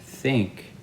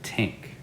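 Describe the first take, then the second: First: The word begins with a th sound. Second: The word begins with a t sound. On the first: The speaker calls it right. "instead of saying think" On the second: The speaker calls it wrong. "they'll say tink"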